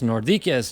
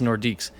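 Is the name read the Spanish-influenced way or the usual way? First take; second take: Spanish-influenced; usual. First: The name is read with a Spanish-influenced pronunciation. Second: The name is read with its usual pronunciation. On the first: The speaker calls it wrong. "growing up speaking Spanish, I it, that's Nordiques to me" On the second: The speaker calls it right. "But it's Nordiques"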